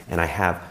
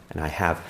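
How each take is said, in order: Both takes have the same delivery.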